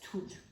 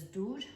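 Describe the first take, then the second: First: The word begins with an aspirated t sound. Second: The word begins with a voiced d sound. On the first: "A Western Armenian speaker would pronounce it as tur" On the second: "an Eastern Armenian speaker would pronounce this as dur"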